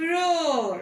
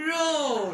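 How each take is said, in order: First: "roar" said louder and firm; teacher stressing "roar"; emphatic repeat. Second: Said in the usual way. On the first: Shown as a demonstration. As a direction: punch "roar" the second time. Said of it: "Once again". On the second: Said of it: "We have just learned".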